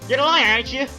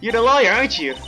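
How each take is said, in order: First: It is spoken in a put-on cat-like voice. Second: It is spoken in a plain, natural voice. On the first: The speaker calls it right. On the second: The speaker calls it wrong.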